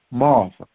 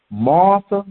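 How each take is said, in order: First: Second "Martha" much lower and softer; repeated name. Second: Said in the usual way. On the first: Shown as a demonstration. Jesus repeats Martha's name, low and soft. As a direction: let the second "Martha" sink low and quiet. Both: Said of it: "that is putting emphasis on it".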